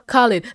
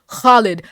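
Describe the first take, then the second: First: The first sound is a plain, soft K. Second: The first sound is rasped from the throat. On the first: The speaker calls it wrong. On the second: The speaker calls it right.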